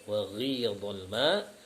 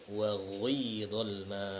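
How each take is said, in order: First: The ghi vowel is a plain i sound. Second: The ghi vowel is rounded toward u. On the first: This is the usual transmitted reading. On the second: This is another reciter's transmitted reading.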